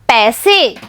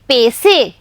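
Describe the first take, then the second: First: The first vowel is an 'ai' sound. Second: The first vowel is a plain 'e' sound. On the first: The speaker calls it right. "प में ऐ की मात्रा पई" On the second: The speaker calls it wrong. "प में ए की मात्रा पे"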